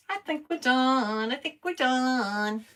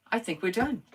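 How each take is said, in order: First: High, slow singsong. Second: Said in the usual way. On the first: Pretend. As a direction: drag it out teasingly. Drawn-out singsong repeat.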